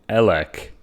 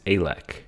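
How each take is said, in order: First: The first vowel is the 'e' of electricity. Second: The first vowel differs from the 'e' in electricity. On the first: The speaker calls it wrong. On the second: The speaker calls it right.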